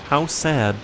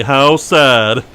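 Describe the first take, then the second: First: Gently sorry, faked sincerity; mock sincere sadness. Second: Louder, hammed-up sorrow; mock sincere sadness. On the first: Player voicing fake pity at a fading ghost, mock sincere. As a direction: sound sorry without meaning it. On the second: Player repeating fake pity, hammed-up sad. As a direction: overdo the pity. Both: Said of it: "I like how I say that so genuinely".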